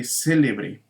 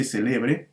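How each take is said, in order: First: "célebre" stressed on CÉ, CÉ-le-bre; stress on first syllable. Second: "celebre" stressed on LE, ce-LE-bre; stress on middle syllable. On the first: Teacher giving the intended adjective, "célebre" stressed CÉ-le-bre. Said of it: "queremos decir que es un personaje célebre". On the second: Teacher reading out what is written, "celebre" stressed ce-LE-bre. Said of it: "aquí dice celebre". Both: Shown as a demonstration.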